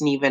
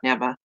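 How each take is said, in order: First: The name does not sound like 'never'. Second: The name sounds like the word 'never'. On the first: The speaker calls it right. "if I tell you it's Neva" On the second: The speaker calls it wrong. "not Neva"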